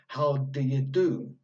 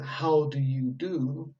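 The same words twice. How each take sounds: First: The small words are shortened with weak vowels. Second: Each word is said fully with clear vowels. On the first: "in spoken English, we actually say" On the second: "would be a strong form"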